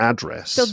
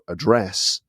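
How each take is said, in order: First: The stress is on the first syllable. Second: The stress is on the last syllable. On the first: "in the U S you put the, the, the stress on the first syllable" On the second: "in the U K they're pronounced with the stress on the last syllable"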